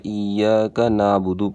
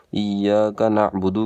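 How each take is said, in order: First: نعبد as "naa-budu", long vowel, no ain; smooth "naabudu" for نعبد; mistaken dropped ain. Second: نعبد with a throaty ain closing the first syllable; correct ain in نعبد. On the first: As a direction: stretch the first vowel of نعبد, skipping the ain. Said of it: "کے بجائے ... پڑھتے". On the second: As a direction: say نعبد as na'-budu, ain sounded. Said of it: "عین کی آواز ضرور نکالیں". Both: Shown as a demonstration.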